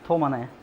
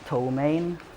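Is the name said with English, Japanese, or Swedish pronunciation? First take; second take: Japanese; English. First: The name is said with a Japanese pronunciation. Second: The name is said with an English pronunciation. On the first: "the Japanese one is" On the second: "the English one is"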